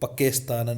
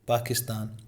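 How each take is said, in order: First: The word ends with an extra trailing 'n' syllable. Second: The word ends cleanly without an extra syllable. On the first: The speaker calls it wrong. "पाकिस्तानन ऐसे मत करना भाई" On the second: The speaker calls it right. "सही बोलना है। फिर भी पाकिस्तान"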